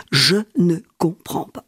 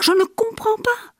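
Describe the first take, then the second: First: Said in the usual way. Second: Voix qui monte très haut, perdue; bouleversé. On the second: Acted. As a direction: crier son incompréhension, aigu. Répète, voix montée très haut. (très aigu, désemparé)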